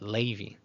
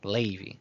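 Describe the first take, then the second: The two takes are said the same way.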